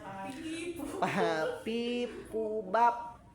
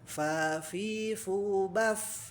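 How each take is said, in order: First: The consonants are voiced, with no escaping air. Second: The consonants are breathy, with air escaping. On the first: The speaker calls it wrong. "Tapi bisa dibaca jadi jahar ya, terutama sama orang Jawa Barat" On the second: The speaker calls it right. "Nah itu jelas hamesnya ya. Hames teh keluar udara ya, keluar angin"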